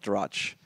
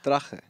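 First: The word ends on the ch sound, no vowel. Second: The word ends with a short vowel after ch. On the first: The speaker calls it wrong. "It's not Drach" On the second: The speaker calls it right.

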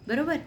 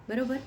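Both takes have the same delivery.

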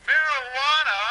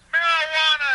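Both takes have the same delivery.

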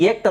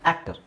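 First: The first vowel sounds like the 'a' in 'bait'. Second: The first vowel sounds like the 'a' in 'bat'. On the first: The speaker calls it wrong. "ಇಲ್ಲಿ ಏಕ್ಟರ್ ಅಂತಿದೆಯಾ" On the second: The speaker calls it right. "ಇಲ್ಲ ಆ್ಯಕ್ಟರ್"

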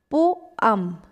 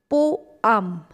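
First: The word is said as two syllables. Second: The word is said as two syllables.

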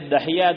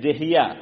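First: The first vowel is a short a. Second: The first vowel is a short i. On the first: "दहिया दाल पे जबन" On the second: "दहिया दाल के नीचे जेर"

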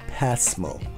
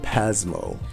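First: The middle consonant is a soft S sound. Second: The middle consonant is a buzzing Z sound. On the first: The speaker calls it right. "No Z in it" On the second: The speaker calls it wrong. "it confuses some Japanese when said like that"

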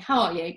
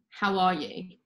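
First: It is asked casually and flippantly. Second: It is asked sincerely and with real care.

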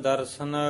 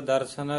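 No difference in how they are said.

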